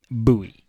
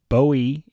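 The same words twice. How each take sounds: First: The name is pronounced the Texan way. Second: The name is pronounced the English way. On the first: "But we call it Bowie" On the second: "to our friends in England, Bowie is a appropriate pronunciation of the name"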